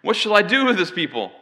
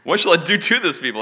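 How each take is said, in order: First: Raised, pleading voice of an exasperated leader; crying out. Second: "to" punched in a raised, louder voice; stress on "to". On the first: Acted. Moses asks the Lord about the people, crying out. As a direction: cry it out, higher and louder on "do". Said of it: "Moses cried out to the Lord". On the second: Shown as a demonstration. Preacher jokes about Moses' wish, stressing "to". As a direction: hit "to" hard, as a mock threat. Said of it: "that's a different meaning. That's important".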